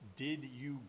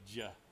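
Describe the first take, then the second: First: The two words are said separately and fully. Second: The two words blend into one short syllable. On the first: "But I didn't say that" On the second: "I ran that all together. I elided away a bunch of syllables"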